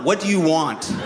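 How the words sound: It sounds weary, resigned and defeated.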